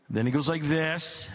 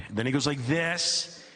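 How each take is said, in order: Both takes have the same delivery.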